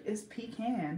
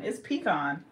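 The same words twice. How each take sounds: First: "pecan" as pee-can, rhymes with tin can. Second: "pecan" as pee-kahn, rhymes with John. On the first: Reconsidering because of the A, "pecan" as pee-CAN. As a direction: say "pecan" with a short A at the end. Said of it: "'Cause the A". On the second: Settling on her pronunciation, "pecan" as pee-KAHN. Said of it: "I definitely say pecan". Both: Shown as a demonstration.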